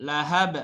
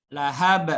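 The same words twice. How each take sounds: The two takes are said the same way.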